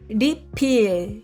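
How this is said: It is said with a Korean pronunciation. "pronúncia na Coreia"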